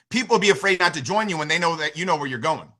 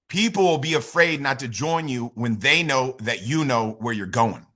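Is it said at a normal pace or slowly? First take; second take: normal pace; slowly. First: It is said at a normal pace. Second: It is said slowly and deliberately.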